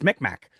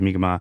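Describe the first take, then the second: First: The name is pronounced the anglicized way. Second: The name is pronounced the native way. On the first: The speaker calls it wrong. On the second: The speaker calls it right.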